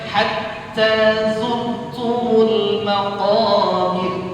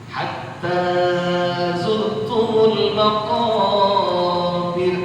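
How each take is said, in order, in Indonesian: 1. Vokalnya hanya dibaca dua harakat. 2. Vokalnya dipanjangkan terlalu lama. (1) "Maksudnya cuman hatta zurtumul maqabir" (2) "Salah. Kelebihan, kepanjangan"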